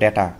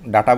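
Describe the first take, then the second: First: The first vowel sounds like 'eh'. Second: The first vowel sounds like 'ah'. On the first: The speaker calls it right. "আমরা বলবো ডেটা" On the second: The speaker calls it wrong. "ডাটা বলবো না"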